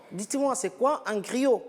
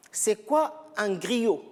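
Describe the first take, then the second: First: Said in the usual way. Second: Slow, clearly spaced out question; slow teacher question. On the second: Shown as a demonstration. Teacher slowly asks students what a griot is. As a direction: let "c'est quoi un griot?" hang, word by word, slowly. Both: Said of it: "Regardez bien la présentation".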